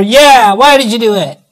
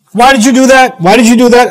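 First: Lightly voiced little kid, pitched up; little child chiming in. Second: Put-on higher-pitched scolding of a child; acted telling-off, voice lifted; mock parental yelling. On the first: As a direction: imitate a kid echoing a scolding parent. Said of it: "one of my little ones comes over". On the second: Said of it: "If I'm yelling at one of my kids".

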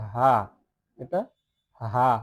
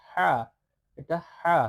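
First: হা as a big, open, voiced h. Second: হা as a tight Arabic throat h; the upper-letter ha. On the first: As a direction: give হা a full, big throat sound. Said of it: "একটু বড় কণ্ঠ বলতে হবে". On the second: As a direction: squeeze the breath in the throat for হা. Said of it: "আর উপরে যেই". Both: Shown as a demonstration.

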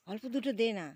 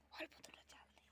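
First: Raised, higher repeat of the request; louder urging. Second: Hushed unvoiced aside; whisper. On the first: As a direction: call it out to him now. (জোরে অনুরোধ) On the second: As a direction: whisper it so the ducks don't notice. Aside to son while filming. (ফিসফিস করে বলা) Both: Real, not acted.

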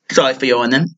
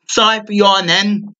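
First: Said in the usual way. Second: Higher repeat. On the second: Real, not acted. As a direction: repeat the apology higher and longer.

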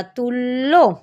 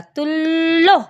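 First: Said in the usual way. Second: তুল্য said slowly as "tullo", the l held double; slow doubled demo. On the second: Shown as a demonstration. Teacher shows children তুল্য with a long double l. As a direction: stretch তুল্য, leaning on the double l. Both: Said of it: "double করে উচ্চারণ করতে হবে".

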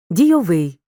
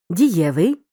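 First: Дійовий with stress on final ВИЙ; stress on the ending. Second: Дієвий with stress on the middle syllable Є; stress before the ending. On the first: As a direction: hit the last syllable, ВИЙ, in дійовий. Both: Shown as a demonstration. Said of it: "Звертай увагу на наголос у слові".

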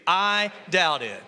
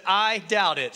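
First: Slow, each word laid out for the crowd; slow unison. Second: Said in the usual way. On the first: Shown as a demonstration. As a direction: lead the room, slowly and clearly. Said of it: "Say it with me". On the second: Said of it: "I want you to say this phrase".

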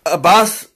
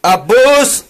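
First: Loud "Abbas!" nearer normal pitch; shorter call. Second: High, loud, drawn-out shout of ABBAS; loud call. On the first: Calls the name a second time. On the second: Calling out to Abbas, high loud shout. Calls out a name. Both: Real, not acted.

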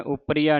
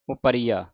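First: ਉਪਰੀਆ squeezed together as upp-riya; wrong pronunciation demo. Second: ਉਪਰੀਆ as u-paree-aa, falling; correct pronunciation demo. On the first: Teacher showing what not to say, joined ਉਪਰੀਆ. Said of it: "ਉਪਰੀਆ ਨਹੀਂ ਕਹਿਣਾ". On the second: Teacher correcting the congregation, ਉਪਰੀਆ opened into syllables. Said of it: "ਇਹਨੂੰ ਉਪਰੀਆ ਪੜ੍ਹਨਾ ਹੈ". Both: Shown as a demonstration.

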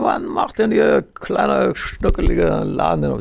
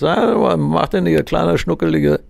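First: Totally plastered caller slurring into the phone; very drunk caller. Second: Put-on lightly slurred, higher drunk voice; a hint of a drunk on the phone; slurring drunk caller. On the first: Retold or imitated. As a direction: stretch it out like a man completely wasted. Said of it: "ist schon völlig hinüber". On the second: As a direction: play a tipsy caller, words a bit slurred. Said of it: "hat eine leicht lallende Stimme".

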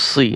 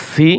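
First: "সি" with a thick, emphatic s; heavy saad sound. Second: "সি" with a thin, plain s; light seen sound. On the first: Teacher drills saad against seen, "সি" made heavy. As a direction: darken "সি" with the tongue back raised. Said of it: "صاد জের সি". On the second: Teacher drills seen against saad, "সি" kept light. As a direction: say "সি" lightly, tongue flat. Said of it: "সিন জের সি". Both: Shown as a demonstration.

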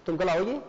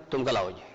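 First: "तुम कल आओगे" as a question, rising at the end; rising yes-or-no question, "तुम कल आओगे". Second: "तुम कल आओगे" as an order, low and falling; low, falling command on "तुम कल आओगे". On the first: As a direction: ask it with a lift on आओगे. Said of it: "ये मेरा सवाल है". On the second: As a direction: order it firmly: "तुम कल आओगे", pitch dropping at the end. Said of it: "ये तो आदेश है मेरा". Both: Shown as a demonstration.

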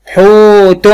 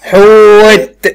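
First: حوت drawn out as huutun, higher; voweled ending. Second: حوت as long, high huut, released t; sukun ending. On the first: Teacher testing the ending, حوت as huutun. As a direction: sound a full "-tun" on حوت. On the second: Teacher pausing on the word, حوت as huut. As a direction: stretch حوت and stop on a bare t. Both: Shown as a demonstration. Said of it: "هقف بالسكون".

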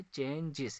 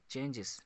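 First: "चेंजेस" in two separate beats, चें-जेस; split into syllables. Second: Said in the usual way. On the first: Shown as a demonstration. Teacher showing two syllables, "चेंजेस" split in two. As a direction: say "चेंजेस" with a break in the middle. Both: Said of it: "इसमें भी दो syllables".

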